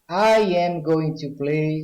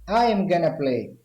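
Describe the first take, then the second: First: Going to is said in full, as two words. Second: Going to is reduced to the single word gonna. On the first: "com going to" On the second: "na fala eu posso substituir going to por gonna"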